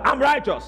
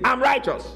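First: Higher, emphatic call-out; bold, forceful raised-pitch affirmation; louder declaration. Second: Boldly declared, higher-pitched; firm, raised-pitch affirmation; bold declaration. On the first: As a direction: urge the congregation to shout it back. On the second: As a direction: proclaim it for the congregation to repeat. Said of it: "be able to say that boldly". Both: Shown as a demonstration.

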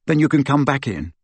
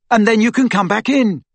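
First: Said in the usual way. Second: High, raised call after someone; urgent call, pitched up; shouted. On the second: A narrator's reading. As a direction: shout it after a person running off. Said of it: "he shouted after her".

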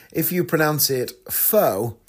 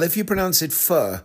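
First: "pho" as "foh", slowly; "pho" with a long O; wrong pronunciation. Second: "pho" as "fuh"; "pho" with an "uh" vowel, no long O; correct pronunciation. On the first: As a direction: say "pho" slowly, rhyming with "foe". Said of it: "it means prostitute". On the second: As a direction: say "pho" like British "fur", R silent. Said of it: "it means, uh, beef noodles". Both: Shown as a demonstration.

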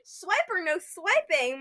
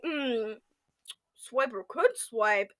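First: Said in the usual way. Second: Soft, slow joking innuendo; playfully suggestive, quiet and lingering; suggestive purr. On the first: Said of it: "More like, "Hmm, Swiper could swipe". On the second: Pretend. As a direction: murmur it slowly as a mock come-on. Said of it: "More like".

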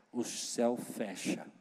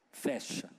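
First: Hushed. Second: Breathy whispered repeat. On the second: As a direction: whisper the word Fecha. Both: Shown as a demonstration. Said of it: "eu vou falar baixinho".

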